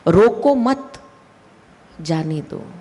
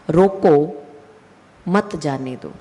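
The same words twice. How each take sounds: First: The pause comes right after mat. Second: The pause comes right after roko.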